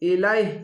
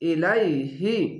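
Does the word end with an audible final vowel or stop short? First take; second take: stops short; final vowel. First: The word stops short without the final vowel. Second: The word ends with a full 'hi' syllable. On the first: The speaker calls it right. "শেষ অক্ষরে এরকমভাবে একটি সাকিন দিয়ে দিবেন" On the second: The speaker calls it wrong. "হি বলতে হবে না।"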